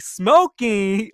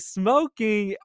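First: Mom's shocked screech, much louder and higher; piercing imitated mom outburst; loud mock yell. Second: Higher but held back after the apology; same shocked mom, volume pulled back; toned-down mom voice. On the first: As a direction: blast it like a disbelieving mother. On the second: Retold or imitated. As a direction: redo the mom's line more gently. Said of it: "I'm sorry, y'all".

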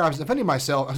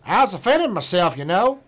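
First: Said in the usual way. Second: A mock Florida man accent, higher and louder. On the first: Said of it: "So I'll, I'll read it in his". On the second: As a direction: put on the Florida man's accent for his quote. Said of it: "his accent".

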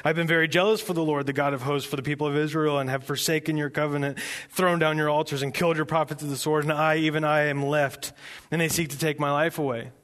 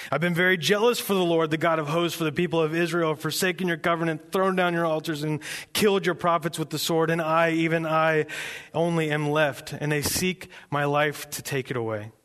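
First: Said in the usual way. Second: Self-important rehearsed speech, slightly raised; lightly proud, insistent recital; proud recitation. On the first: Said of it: "Elijah's very proud of". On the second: Acted. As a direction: rattle off a well-worn grievance proudly. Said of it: "Elijah's very proud of this speech".

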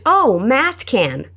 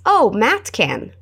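First: Drawn out very slowly for learners; deliberate slow teaching read; slow model phrase. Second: Very slow teaching repeat; slow it down for the class to echo; deliberate slow model. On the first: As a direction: say it slowly so they can copy. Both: Shown as a demonstration.

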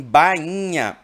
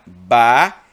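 First: Said in the usual way. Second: Bainha split into ba-i-nha, said loud; syllables split, loud. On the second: Shown as a demonstration. Teacher breaks Bainha into syllables for students, loud and slow. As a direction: spell out Bainha syllable by syllable, louder. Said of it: "o problema está em bainha".

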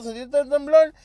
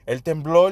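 First: "¿Sentiste el temblor?" mucho más agudo; pregunta ansiosa. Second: Said in the usual way. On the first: Retold or imitated. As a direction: preguntando con urgencia, agudo. (amigos preguntan por el temblor, voz aguda)

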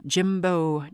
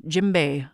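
First: JIMBO, ending in a long "oh"; drum name slip. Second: JIMBE, ending in "bay"; corrected drum name. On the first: Storyteller misnaming the drum, Jimbo ending in "oh". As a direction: say Jimbo with an "oh" on the end. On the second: Storyteller correcting the drum's name, Jimbe ending in "bay". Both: Real, not acted. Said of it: "sorry, that's what the drum's called".

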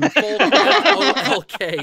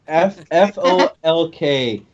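First: F O L K, letter by letter, slow; spelling it out. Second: F O L K, each letter said slowly; spelling it out. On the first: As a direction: spell Folk out slowly, letter by letter. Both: Shown as a demonstration.

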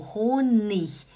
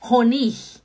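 First: Honig slowly, long O; right Honig. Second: Honig louder, short clipped O; wrong German Honig, short O. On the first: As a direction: model Honig with the O held long. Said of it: "Isso significa que é". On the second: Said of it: "e não Honig". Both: Shown as a demonstration.

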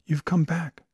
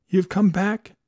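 First: Said in the usual way. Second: The repeat swells louder and higher; old man overjoyed his love is back; louder joyful repeat. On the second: A narrator's reading. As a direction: let the joy burst out the second time. Danby repeats, swelling with joy.

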